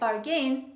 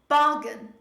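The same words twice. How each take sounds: First: The stress is on the second syllable. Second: The stress is on the first syllable. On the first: The speaker calls it wrong. "Don't say bargain" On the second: The speaker calls it right. "say bargain"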